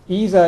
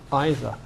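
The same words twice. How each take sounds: First: It is said the American way. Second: It is said the upper-class British way. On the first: It is the common, widely accepted form. "It's the American pronunciation" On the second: It sounds more upper class. "Either seems to be sort of more upper class R P"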